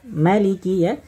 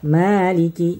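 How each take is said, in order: First: The first vowel is held for one beat. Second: The first vowel is held for two beats. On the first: "membaca ma-nya dengan satu harokat" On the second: "Imam Hafs membaca dengan dua harokat"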